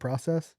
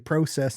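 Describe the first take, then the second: First: It is said with a non-Canadian pronunciation. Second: It is said with a Canadian pronunciation. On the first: "instead of process" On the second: "the Canadians say process"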